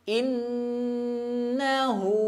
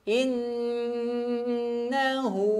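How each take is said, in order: Both takes have the same delivery.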